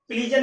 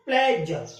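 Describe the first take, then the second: First: प्लीजर with a long ee, the wrong way; wrong pronunciation. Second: प्लेजर with a short e, as in pleasure; correct pronunciation. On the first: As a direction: say प्लीजर like please-jer. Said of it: "नहीं बोलते प्लेजर". (गलत उच्चारण प्लीजर, लंबी ई के साथ) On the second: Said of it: "क्या बोलते हैं? प्लेजर". (सही उच्चारण प्लेजर, छोटी ए के साथ) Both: Shown as a demonstration.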